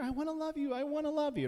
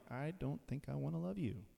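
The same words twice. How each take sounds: First: Very high sweet sing-song; eager coaxing. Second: Much softer, cool reply; aloof cat. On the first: Preacher playing someone begging a cat for affection, high sweet coaxing. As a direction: beg to cuddle it, sweetly and high. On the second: Preacher voicing an aloof cat turning down love, soft and cool. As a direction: brush them off quietly like a cat. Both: Pretend.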